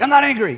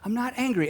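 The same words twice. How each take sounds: First: It is said in an angry tone. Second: It is said in a calm tone.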